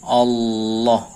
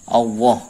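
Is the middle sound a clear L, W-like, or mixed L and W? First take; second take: clear L; W-like. First: The middle sound is a clear tongue L. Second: The middle sound is purely like W. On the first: The speaker calls it right. "yang benar itu hanya lidah" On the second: The speaker calls it wrong. "ini murni kayak wawu"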